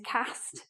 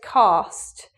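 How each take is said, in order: First: It is said in a northern English accent. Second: It is said in a southern English accent. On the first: "Northern pronunciation is cast" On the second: "southern pronunciation of this word is cast"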